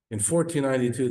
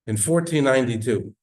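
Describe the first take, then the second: First: Fourteen ninety-two repeated high, a little less loud; repeated emphatic. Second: Fourteen ninety-two called out loud and high; loud emphatic. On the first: Preacher repeating the date, raised and insistent. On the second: Preacher to congregation, loud and high proclamation. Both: Real, not acted.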